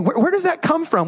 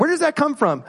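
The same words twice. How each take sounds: First: Said in the usual way. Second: A quicker run through the same question; sped up. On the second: Shown as a demonstration. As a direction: say it faster, moving on. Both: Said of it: "We'll speed it up a little bit".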